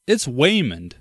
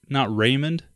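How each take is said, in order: First: Waymond said with a clear W sound. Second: Raymond said with a clear R sound. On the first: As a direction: start Waymond on a rounded W. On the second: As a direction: start Raymond on a firm R. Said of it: "Did you say Raymond?". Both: Shown as a demonstration.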